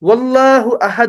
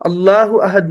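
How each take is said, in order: First: A w sound links into Allahu. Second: Allah starts fresh, with no w before it. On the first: The speaker calls it right. "वल्लाहु अहद होता है" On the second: The speaker calls it wrong. "वो अल्लाह अहद नहीं होता"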